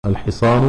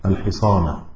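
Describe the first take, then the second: First: الحصان ending in a short "u"; الحصان closed on an "-u" vowel; nominative ending. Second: الحصان ending in a short "a"; الحصان closed on an "-a" vowel; accusative ending. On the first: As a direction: say الحصان as al-hisaanu, with final damma. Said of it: "مرفوع". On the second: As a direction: say الحصان as al-hisaana, with final fatha. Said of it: "منصوب لأنه مفعول به". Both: Shown as a demonstration.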